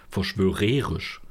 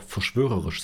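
First: Verschwörerisch with a long stressed RE; verschwörerisch with the weight wrongly moved onto "re". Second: Said in the usual way. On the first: Shown as a demonstration. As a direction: say verschwörerisch as "ver-schwö-REE-risch". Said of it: "und nicht verschwörerisch". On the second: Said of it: "würdest jetzt auch verschwörerisch sagen".

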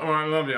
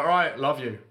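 First: Improperly said, higher and louder brush-off; grudging retold reply. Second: Louder, deliberate retold concession; giving in, said properly. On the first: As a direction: imitate a reluctant, run-together answer. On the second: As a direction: imitate a resigned but clearer reply. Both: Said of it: "say it properly".

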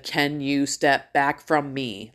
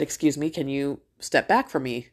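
First: Deliberate, drawn-out request for slow listeners; slow, pointed repeat. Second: Polite, even-toned ask; retold courteous request at an easy pace; nice request. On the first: Retold or imitated. Mom asks shoppers a second time, slowly and pointedly. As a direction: spell it out slowly, word by word. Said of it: "maybe you weren't understanding what I said the first time". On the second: Mom first asks shoppers to step back, nicely. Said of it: "And she asked nicely".

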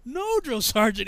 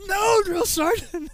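First: Slow, higher formal reply; lightly acted recruit answer; recruit's refusal. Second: High, very slow drawn-out yell; hammed-up high shout; shouted refusal. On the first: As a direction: refuse the sergeant, drawn out. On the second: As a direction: sound off the refusal, stretched. Louder repeat of refusal.

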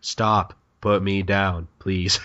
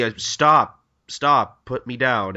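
First: Low-key, half-hearted protest; anticlimactic. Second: Mildly protesting, repeated stop; Marinosuke. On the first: Hunter being carried away, anticlimactic plea. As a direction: protest weakly, with no urgency. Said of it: "that sounded so anticlimactic". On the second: Hunter being carried off, mild protest. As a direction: protest with a little push on each stop. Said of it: "Marinosuke's like". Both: Retold or imitated.

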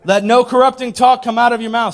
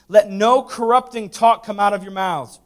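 First: "Let no corrupting talk" high and very loud; heavy emphasis. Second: "Let no corrupting talk" read firmly, a little louder; firm scripture reading. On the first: Preacher repeating "Let no corrupting talk" for emphasis, heavily stressed. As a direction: hammer "no corrupting talk" out at full voice. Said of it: "One more time for emphasis". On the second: Preacher first reading "Let no corrupting talk" to the church, firmly. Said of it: "Read that again". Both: Shown as a demonstration.

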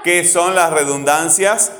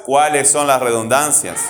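First: "¿Qué son las redundancias?" slow and loud, rising at the end; contrastive question. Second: "Cuáles" punched, slow, falling to the end; stress on CUÁLES. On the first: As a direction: spell out "Qué son" slowly and firmly, lifting "redundancias". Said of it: "No son la misma pregunta". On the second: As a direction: hit "Cuáles" as the contrasting word, then let the question drop. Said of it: "No es lo mismo". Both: Shown as a demonstration.

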